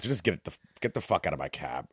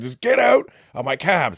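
First: Low, quiet dismissal; subdued, weary cab driver ordering passengers out; retold weary order. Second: Loud, higher-pitched order to leave; mock yell, kicking passengers out; retold exasperated yell. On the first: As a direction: tell them to leave, keeping it down. Cabbie first orders them out quietly. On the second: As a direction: act out a cabbie losing patience. Cabbie loses patience after their pleading.

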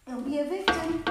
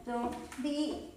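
First: Victim hit firmly on the fall; strong self-push landing on "victim"; firm coaching push. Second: Said in the usual way. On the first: Real, not acted. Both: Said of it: "You see, I coach myself".

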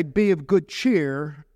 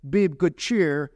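First: Each word drawn out slow; slow emphatic quote. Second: Said in the usual way. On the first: Shown as a demonstration. Pastor slowly quoting Jesus' words to the church. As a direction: lean on it slowly, as Jesus' comfort. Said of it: "You don't say". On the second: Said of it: "when Jesus is saying".

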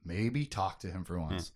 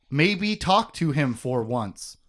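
First: Low, hushed inner thought; soft, low musing. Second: Slow, measured delivery of a quote; slow and pointed; deliberate quote. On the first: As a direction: think it quietly to yourself. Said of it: "now she's just thinking". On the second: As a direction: quote it slowly, word by word. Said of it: "like, and I quote, she says". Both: Retold or imitated.

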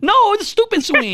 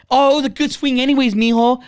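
First: High-pitched outraged correction; yelling. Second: Higher-pitched, over-encouraging parent. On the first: Tough-love parent to a kid who struck out, yelling. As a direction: scold the kid in a much higher voice. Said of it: "Like, yelling at him". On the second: Imitated parent to a kid who struck out, encouraging. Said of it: "you're not even yelling at him". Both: Retold or imitated.

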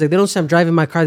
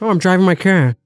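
First: Said in the usual way. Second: Broad r-less Boston vowels; playful Boston accent impression. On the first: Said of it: "they don't say, like, certain words". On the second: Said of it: "it's all just a Boston accent".

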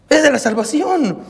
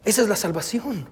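First: "Esa es la salvación" lifted higher and proclaimed; preacher's emphatic restatement; emphatic repeat. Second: Soft reflective statement; quiet. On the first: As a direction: repeat it with rising conviction to the congregation. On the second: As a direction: say it almost under the breath, letting it sink in. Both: Shown as a demonstration.

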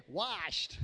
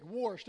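First: Said in the usual way. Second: "washed" said Southern, as "warshed"; southern accent. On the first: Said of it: "trying to understand what's washed". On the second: Shown as a demonstration. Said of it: "gonna learn a new word".

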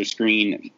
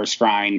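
First: Skrine said like "screen"; "Skrine" rhyming with green; correct pronunciation. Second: Skrine said to rhyme with shine; "Skrine" pronounced as spelled, skr-eye-n; habitual mispronunciation. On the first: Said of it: "but it's pronounced Skrine". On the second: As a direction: say Skrine with a long i, as in line. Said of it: "why I always say Skrine". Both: Real, not acted.

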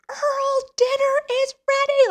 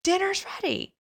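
First: Very high, loud imitated scream. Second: Raised voice. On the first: Brother screaming at unresponsive man in man cave, screamed call. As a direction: scream it to wake someone, much higher and louder. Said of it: "So then he screams". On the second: Retold or imitated. Brother rousing a sleeping man for dinner, raised voice. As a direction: imitate a brother calling someone to dinner. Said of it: "raises his voice".

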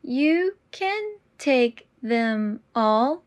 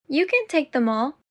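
First: Very slow and deliberate. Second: Said in the usual way. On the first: Shown as a demonstration. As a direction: draw out every word. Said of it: "repetition drill, slowed take". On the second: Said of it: "repetition drill, normal take".

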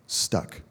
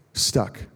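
First: Hushed stuck. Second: Whispered stuck. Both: Real, not acted.

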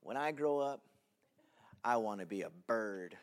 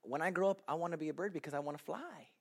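First: Put-on sincere child answer. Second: Put-on softer earnest child's sentence. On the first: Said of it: "I looked at the class and I said". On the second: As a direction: read it like a shy kid. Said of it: "my sentence was this".

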